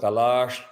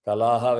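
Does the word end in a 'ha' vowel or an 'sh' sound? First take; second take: sh sound; ha vowel. First: The word ends with an 'sh' sound. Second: The word ends with a full 'ha' syllable. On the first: The words are recited joined together. "வில் become கலாஷ்" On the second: The words are recited separately. "கலாஹா will become கலாஷ்"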